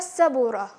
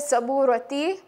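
First: The word ends with a soft h sound. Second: The word ends with a full ti sound. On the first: The speaker calls it right. "You will end it with a ha sound" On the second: The speaker calls it wrong. "you will not say saburati"

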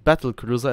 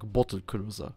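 First: The first vowel is like the vowel in 'cat'. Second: The first vowel is like the vowel in 'bottle'. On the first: "it doesn't sound like battle cruiser" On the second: "it sounds like bottle cruiser"

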